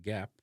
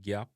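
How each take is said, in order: First: GAP with a short front A; English-style "gap"; English pronunciation. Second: GAP as "gyap", relaxed A; Jamaican pronunciation. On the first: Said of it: "in a English". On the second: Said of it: "examples of the word". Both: Shown as a demonstration.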